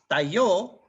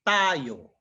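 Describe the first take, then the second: First: The stress is on the last syllable. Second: The stress is on the first syllable. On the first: "the accent uh, symbol would have been on top of the O" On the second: "the accent is on top of the A, so the wor- the way to read it is tayo"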